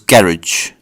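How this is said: It is said in a British accent.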